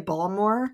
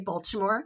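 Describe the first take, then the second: First: The name is said in a casual, local way. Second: The name is said carefully, with every syllable. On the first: This is how locals say it. The speaker calls it wrong. "they say Baltimore, and I don't like it" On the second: This is the standard way to say it. The speaker calls it right. "emphasize correct ways of saying things. So I say Baltimore"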